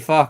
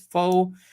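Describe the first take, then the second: First: The vowel is short and open, like 'fuh'. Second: The vowel is a long 'oh', like 'foe'. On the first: The speaker calls it right. "you say "fa" correctly" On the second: The speaker calls it wrong. "Americans often uh, fail often and say it with the same pronunciation as "faux,""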